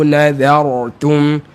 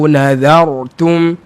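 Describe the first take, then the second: No difference in how they are said.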